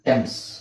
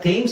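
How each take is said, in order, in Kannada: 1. ಇದು ಸರಳ t ಶಬ್ದದಿಂದ ಶುರುವಾಗುತ್ತೆ, ಹ್ರಸ್ವ ಸ್ವರ. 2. ಇದು th ಶಬ್ದದಿಂದ ಶುರುವಾಗುತ್ತೆ, ದೀರ್ಘ ಸ್ವರ. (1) "ಆಕ್ಚುಲಿ ಅದು ಪ್ರೊನೌನ್ಸಿಯೇಷನ್ ಏನು ಗೊತ್ತಾ? ಟೆಮ್ಸ್" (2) "ತುಂಬಾ ಜನ ಥೇಮ್ಸ್ ಅಂತ ಹೇಳ್ತಾರೆ"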